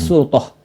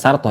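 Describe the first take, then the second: First: The first vowel is a rounded 'u' sound. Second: The first vowel is an open 'a' sound. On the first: The speaker calls it right. "tapi surtoh" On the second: The speaker calls it wrong. "Jadi bukan dibaca sartoh ya"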